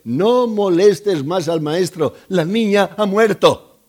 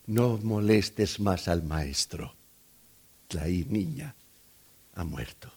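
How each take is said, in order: First: Loud, raised-pitch messenger's proclamation; emphatic announcement. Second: Hushed bad news. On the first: Acted. Messengers telling the father his girl is dead, emphatic announcement. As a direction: deliver the bad news forcefully, climbing louder at the end. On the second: Messengers breaking the death to the waiting father, hushed. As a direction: let the death message sink away almost to nothing.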